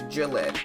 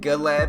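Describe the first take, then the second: First: The name begins with a soft J sound. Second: The name begins with a hard G sound.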